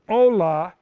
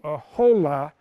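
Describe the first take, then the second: First: The word starts with a plain vowel, no h. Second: The word starts with a breathy h sound.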